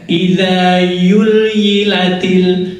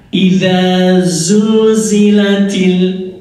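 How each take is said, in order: First: The consonant is pronounced as a y sound. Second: The consonant is pronounced as a z sound. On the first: The speaker calls it wrong. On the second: The speaker calls it right.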